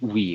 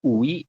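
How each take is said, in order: First: The u and i blend into one syllable. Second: The u and i are said as separate vowels. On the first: The speaker calls it right. "tapi wi langsung" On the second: The speaker calls it wrong. "bukan ui"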